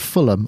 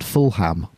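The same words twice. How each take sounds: First: The name is said the British way. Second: The name is said the American way. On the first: The speaker calls it right. "Congratulations on the way, by the way, for saying Fulham" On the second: The speaker calls it wrong. "not Fulham, which is a very easy thing to do because of ... the way that Americans pronounce words"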